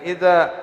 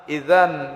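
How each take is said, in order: First: The word ends with a long a vowel. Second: The word ends with an n sound.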